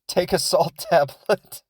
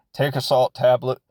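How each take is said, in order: First: Higher, slower, lightly put-on mom voice; a hint of a dismissive mother; mocking the mom. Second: Said in the usual way. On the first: Mocking the mom brushing off her sick kid, lightly put-on. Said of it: "she's like".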